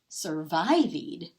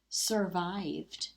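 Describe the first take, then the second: First: The ending is said with a long 'ee' sound. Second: The ending is said with a plain 'd' sound. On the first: The speaker calls it wrong. "Double E sounds like E. That would make this word say survived" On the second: The speaker calls it right. "Take it off. Even though there's still an E, now it says survived"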